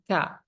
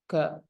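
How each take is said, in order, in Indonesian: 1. Vokal diucapkan dengan mulut terbuka lebar. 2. Vokal diucapkan dengan mulut setengah tertutup. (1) "dibuka lebar-lebar"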